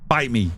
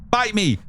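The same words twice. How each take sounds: First: Said in the usual way. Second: "Bite me" jumped up high, playful sass; mock defiant comeback; sassy retort. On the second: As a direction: fire it back at chat, cheeky. Playfully retorting chat's line.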